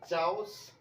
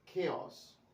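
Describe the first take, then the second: First: The word begins with a ch sound. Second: The word begins with a k sound. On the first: The speaker calls it wrong. "मैंने कोई भी word सही pronounce नहीं किया" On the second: The speaker calls it right. "इसको खेओस ही पढ़िएगा"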